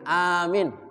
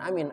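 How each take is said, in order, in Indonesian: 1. Vokalnya dipanjangkan. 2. Vokalnya diucapkan pendek dan terpotong. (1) "Panjang aminnya ya" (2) "Bukan amin"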